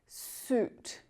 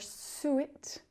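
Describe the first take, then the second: First: Only a single 'oo' vowel is heard. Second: An extra 'ih' vowel follows the 'oo'. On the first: The speaker calls it right. "we just use that oo vowel sound" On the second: The speaker calls it wrong. "we don't pronounce that I sound. So it's not"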